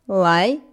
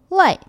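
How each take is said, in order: First: The pitch rises from mid to high. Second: The pitch falls sharply from high to low.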